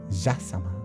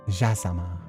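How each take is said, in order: No difference in how they are said.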